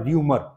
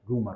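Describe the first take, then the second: First: र्यूमर said with a y glide, ryoo-mer; र्यूमर rhymed with ह्यूमर; wrong pronunciation. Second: रूमर said plain roo-mer with no y sound; रूमर with a light r and no glide; correct pronunciation. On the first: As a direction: mimic the common mistake र्यूमर, like humour. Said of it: "कई लोग इसको र्यूमर बोलते हैं". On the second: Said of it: "नहीं, रूमर". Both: Shown as a demonstration.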